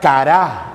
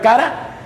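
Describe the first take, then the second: First: The stress is on the last syllable. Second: The stress is on the first syllable. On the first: "pero le pone acento en la última A" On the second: "así como si escribiera cara"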